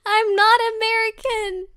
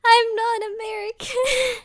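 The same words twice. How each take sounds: First: Loud, high indignant protest through laughter; laughing mock outrage. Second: High, loud repeat shaking with laughter; giggling defence; laughing protest. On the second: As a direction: say it again, cracking up. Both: Real, not acted.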